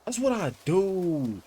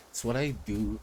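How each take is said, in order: First: High, slow, drawn-out "That's what I do"; proud crowing. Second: Said in the usual way. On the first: Real, not acted. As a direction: stretch out the boast up high. Boast, then repeated plainly.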